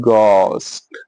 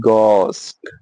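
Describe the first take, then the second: The two takes are said the same way.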